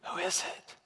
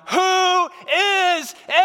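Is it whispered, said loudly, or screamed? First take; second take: whispered; screamed. First: It is sleepily whispered. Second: It is screamed out in fear.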